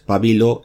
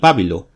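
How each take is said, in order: First: The stress is on the second syllable. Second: The stress is on the first syllable. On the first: "Una la ponía con tilde" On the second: "la otra, al ser esdrújula, con tilde"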